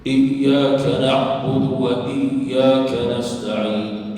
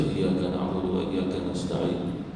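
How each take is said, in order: First: Iyyaka na'budu very slow and loud, double y held; loud, drawn-out chant, leaning on the yy of Iyyaka; shaddah recitation. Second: Iyyaka na'budu run through with a single light y; unstressed wrong reading of Iyyaka; shaddah dropped. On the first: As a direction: press each yy in "Iyyaka na'budu wa iyyaka nasta'in". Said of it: "Iyya di situ adanya syaddah". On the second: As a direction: skim "Iyyaka na'budu wa iyyaka nasta'in" without pressing yy. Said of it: "jangan dibaca". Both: Shown as a demonstration.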